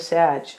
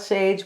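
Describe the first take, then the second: First: The word is said like 'sag'. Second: The word is said like 'sage'. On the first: The speaker calls it right. "but a Sag" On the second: The speaker calls it wrong. "Not a Sage"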